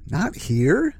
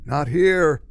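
First: "Not here?" as a question, HERE rising; puzzled echo. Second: Lightly croaked, full volume; mild croak, falling at the end; retold croak. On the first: Retold or imitated. Narrator puzzling over the stranger's words, "Not here?" rising in question. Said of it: "The narrator thinks". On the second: Beardy stranger to the narrator, mild croak. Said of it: "The guy croaks out quietly".

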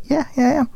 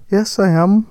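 First: Higher, softly voiced actress; voiced actress reply. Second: Badly faked Wolverhampton accent; attempted Wolverhampton accent. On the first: Actress answering a fan in the shop, higher voice. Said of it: "And she's like". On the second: Actress answering a fan, shaky attempt at Wolverhampton accent. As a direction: have a rough go at a Wolverhampton accent. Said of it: "trying to do an impression of her".

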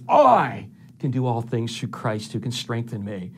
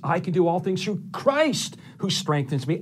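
First: Big emphatic "I" at the start; stress on I. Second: Ringing emphasis on "Christ", the rest lighter; stress on CHRIST. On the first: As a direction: hit "I" hard, stretch it out, then settle. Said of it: "I put emphasis on those words". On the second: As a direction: build up to "Christ" and punch it. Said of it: "I'll emphasize the word Christ". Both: Shown as a demonstration.

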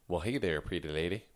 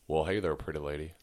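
First: Southern accent. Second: Texas accent like a famous singer's. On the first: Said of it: "he's from the South". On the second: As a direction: try Texas, landing near a famous singer. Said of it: it was likened to a famous singer. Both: Shown as a demonstration.

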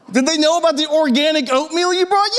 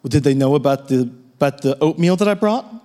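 First: Much higher, incredulous mocking repeat; mocking echo. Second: Deadpan. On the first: Pastor mocks his wife's oatmeal question, high and incredulous. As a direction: parrot her question back in disbelief. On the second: Retold or imitated. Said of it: "with a straight face".

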